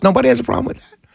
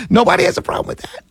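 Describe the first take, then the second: First: Said in the usual way. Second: High, fast, breathy mock disbelief; sarcastic disbelief. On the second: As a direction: toss it off as if nobody could care. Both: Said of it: "I'm dead serious".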